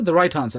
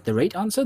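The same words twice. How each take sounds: First: Said in the usual way. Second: A slip into Scottish, "right" sounding like "rate"; Scottish accent. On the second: Real, not acted. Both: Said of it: "That's my Scottish accent coming out".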